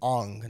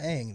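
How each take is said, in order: First: The vowel sounds like the one in 'on'. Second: The vowel sounds like the one in 'an'. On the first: This is how the film's version said the name. The speaker calls it wrong. "They called them Ong" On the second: This is how the name should be said. The speaker calls it right. "not Aang"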